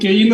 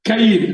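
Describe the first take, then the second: First: The name is said the English way, Cain. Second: The name is said the Hebrew way, Kayin. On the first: The speaker calls it wrong. "ഇംഗ്ലീഷിൽ എഴുതിയേക്കുന്നതായ പദം കെയിൻ എന്നാണ്. അത് അങ്ങനെയല്ല" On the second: The speaker calls it right. "Hebrew പദത്തിൽ നിന്ന് ക്യു എ വൈ ഐ എൻ എന്നാണ് അതിന് ഉച്ചാരണം"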